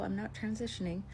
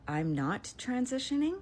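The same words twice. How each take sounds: First: It is said in a calm, polite tone. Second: It is said in an angry, indignant tone. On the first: The speaker hides the anger to stay persuasive. "I didn't say it like that because I was trying to win a case" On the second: The speaker is outraged by the question. "I was so fucking mad. I said"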